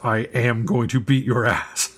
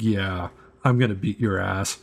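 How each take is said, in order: First: It sounds enraged and furious. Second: It sounds confident and smug.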